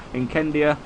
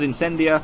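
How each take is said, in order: First: Incendia with a hard K sound in the middle; hard C pronunciation. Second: Incendia with a soft S sound in the middle; soft C pronunciation. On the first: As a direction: say Incendia as "in-KEN-dia". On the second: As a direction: say Incendia as "in-SEN-dia". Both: Shown as a demonstration. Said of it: "I forget what Nubs called this".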